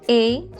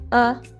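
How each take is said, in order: First: The word has a full, open vowel. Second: The word has a reduced schwa vowel. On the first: "strong form" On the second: "weak form"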